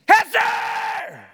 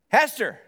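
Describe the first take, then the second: First: The name is shouted loudly and angrily. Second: The name is called softly and gently.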